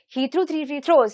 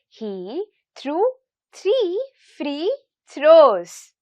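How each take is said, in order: First: It is said at a fast pace. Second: It is said at a slow pace.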